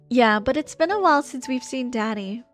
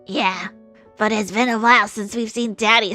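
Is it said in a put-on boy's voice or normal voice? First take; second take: normal voice; boy's voice. First: It is said in the speaker's normal voice. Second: It is said in an attempted boy's voice.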